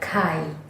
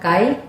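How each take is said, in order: First: The word is said in a heavy way. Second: The word is said in a light way. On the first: "ada yang berat" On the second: "kai itu yang ringan kai"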